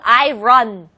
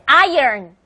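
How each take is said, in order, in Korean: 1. 사전 기호가 적힌 그대로 발음합니다. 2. 자연스러운 말하기 방식으로 발음합니다. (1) "사전 기호로는 분명 I run" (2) "실제 영어 발음 다른 게"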